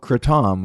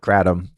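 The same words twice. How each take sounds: First: It is pronounced the way Thai speakers say it. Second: It is pronounced the way local speakers say it. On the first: "how they pronounce it in Thailand" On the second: "people here call it kratom"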